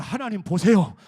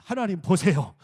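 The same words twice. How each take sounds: First: Very loud rallying lead; louder call. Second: Loud congregational lead-in; first loud call. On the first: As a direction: call it out bigger, at full voice. (더 큰 소리로 힘껏 선창) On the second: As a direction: call it out for them to repeat. (따라 하도록 크게 선창) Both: Shown as a demonstration. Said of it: "크게 합시다".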